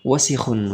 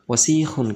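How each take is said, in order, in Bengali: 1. শব্দটিতে স্বরধ্বনিগুলো ছোট রাখা হয়। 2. শব্দটিতে একটি স্বরধ্বনি টেনে পড়া হয়।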